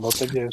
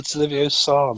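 First: Leviosa said lee-vee-oh-SAH, stress on SAH; wrong Leviosa. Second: Leviosa said as lee-vee-OH-sah, stress on OH; correct Leviosa. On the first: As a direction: Leviosa with the last syllable stressed. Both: Retold or imitated. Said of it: "blooming Harry Potter".

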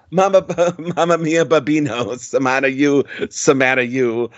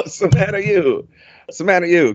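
First: Mock Italian sing-song, lightly done; hammed-up Italian crooning in a light touch; Italian accent. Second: Mock Italian chant, stretched; Italian accent. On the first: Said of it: "sings it in an Italian accent". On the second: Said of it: "Italian accent".

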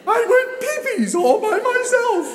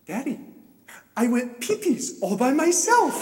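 First: Shrieked high through laughter; laughing, crying repeat. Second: Put-on high, proud small-child voice; delighted little daughter. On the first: Retold or imitated. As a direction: echo the child in loud hysterics. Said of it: "I'm laughing, I'm crying". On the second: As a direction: imitate a child proudly telling daddy. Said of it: "has this huge smile and she goes".

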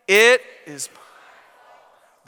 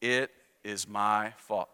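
First: "It is my fault" slow and loud, every word weighed. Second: "It is my fault" said low and soft, trailing off; ashamed, mumbled. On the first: Preacher leading the congregation, saying it slow and loud. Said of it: "Say it out loud with me". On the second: Congregation's first try, saying it as if ashamed. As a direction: mutter "It is my fault" as if ashamed to admit it. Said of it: "say it like you're not ashamed of it". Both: Shown as a demonstration.

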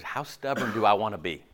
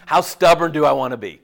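First: Said in the usual way. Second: Louder, pressing on stubborn; emphatic repeat. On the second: Shown as a demonstration. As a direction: hit "stubborn" hard the second time.

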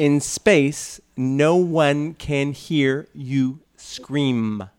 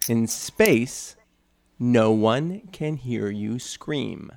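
First: Slow exaggerated mouthing. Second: Horror trailer voice. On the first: Shown as a demonstration. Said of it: "And again, again". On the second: Acted. Repeating the tagline.

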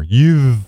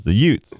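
First: Youth with the th sounded clearly; fixing Youth for the judge; corrected youth. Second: The Utes with no th, said yoots; The Utes the way Vinny says youths; Vinny's yutes. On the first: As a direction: land the th at the end of Youth. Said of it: "I'm sorry, Your Honor". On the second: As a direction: drop the th in The Utes, New York style. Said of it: "that's how he said for kids". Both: Retold or imitated.

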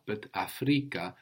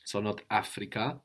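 First: Afrika stressed on the penultimate syllable, fri; Swahili Afrika. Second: Africa with English stress on the first syllable; English-style Africa. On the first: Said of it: "the accent on the penultimate syllable". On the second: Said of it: "not to carry over the accent from English". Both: Shown as a demonstration.

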